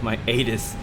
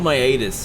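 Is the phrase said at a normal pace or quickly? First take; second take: normal; quickly. First: It is said at a normal pace. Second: It is said very quickly, letters run together.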